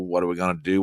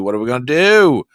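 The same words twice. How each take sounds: First: Said in the usual way. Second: Same question burst out much louder; louder exclaim. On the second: Acted. Host hamming it up to viewers, loud exclaim. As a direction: throw it out loud like a mock panic.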